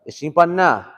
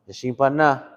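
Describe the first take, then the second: First: It is said in a forceful, bold way. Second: It is said in a gentle, kind way.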